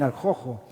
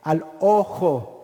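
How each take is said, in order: First: An h-like sound comes before 'ojo'. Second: 'Ojo' starts directly with a vowel.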